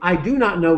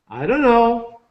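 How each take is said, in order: First: Every word is said fully and separately. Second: The words blur together into a dunno sound. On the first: The speaker calls it wrong. "Americans don't say, I do not know" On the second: The speaker calls it right. "From I don't know, we say"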